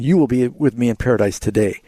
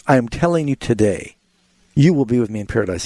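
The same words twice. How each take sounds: First: "today" tacked onto the end of "in paradise today" with no break; the wrong phrasing, no pause before "today"; misplaced today. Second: Phrase break right after "today", then "you will be with me in paradise" run together; "I am telling you today" as its own phrase, then the promise; stress on today. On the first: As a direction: read it straight through with "today" last. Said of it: "He's not saying". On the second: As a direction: lean on "today" and pause before "you will be". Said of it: "Now, the emphasis is". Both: Shown as a demonstration.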